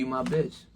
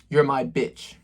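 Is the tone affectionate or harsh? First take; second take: affectionate; harsh. First: It is said in a smooth, affectionate tone. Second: It is said in a blunt, harsh tone. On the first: The speaker calls it right. "It's a different type of energy" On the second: The speaker calls it wrong. "the tone of it? It doesn't sound right. It doesn't sound good"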